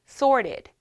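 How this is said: It is said with an American accent. "미국식 발음"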